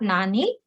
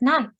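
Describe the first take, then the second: First: The word has two syllables, ending in a vowel. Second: The word has one syllable, ending in n. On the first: The speaker calls it wrong. "not nani" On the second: The speaker calls it right. "This time we are pronouncing it nan"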